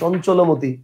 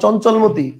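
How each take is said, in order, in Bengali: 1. ল আর ম-এর মাঝে ওকার শোনা যায়। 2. ল আর ম-এর মাঝে কোনো স্বরধ্বনি শোনা যায় না। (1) "আমি বলবো কি ... লয়ের পরে কি একটা ওকার দিচ্ছি" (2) "আমি তো আর বলবো না"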